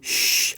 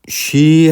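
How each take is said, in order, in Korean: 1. 이 소리는 무성음이에요. 목이 울리지 않아요. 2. 이 소리는 유성음이에요. 목이 울려요. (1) "이게 없이 쉬 하면 울리지 않아요" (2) "쉬 하면 울리는데"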